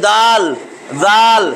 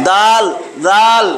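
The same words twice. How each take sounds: No difference in how they are said.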